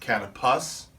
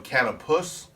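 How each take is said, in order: First: The stress is on the second syllable. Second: The stress is on the first syllable.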